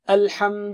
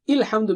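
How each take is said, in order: First: The word begins with an A vowel. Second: The word begins with an I vowel. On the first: The speaker calls it right. "You have to say" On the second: The speaker calls it wrong. "you don't say ilhamdu"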